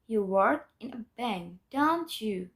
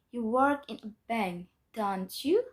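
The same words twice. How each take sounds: First: "don't you" starts raised and falls at the end; falling intonation. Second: "don't you" swept sharply upward at the end; rising intonation. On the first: Teacher repeating the bank example for learners, falling tag. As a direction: bring "don't you" down like a statement. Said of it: "with a descending intonation". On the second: Teacher giving an example of a positive sentence, rising tag. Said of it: "with raising intonation". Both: Shown as a demonstration.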